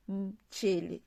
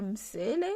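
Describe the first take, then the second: First: "mchele" with a tch sound, slowly; "mchele" said the right way, with tch; "mchele" with tch, slow and careful; correct mchele. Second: "msele" with a plain s, the wrong reading; "msele" read the French way, with s; "msele" with an s, marked wrong. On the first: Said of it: "mais on dit mchele". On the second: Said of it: "on ne lit pas msele". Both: Shown as a demonstration.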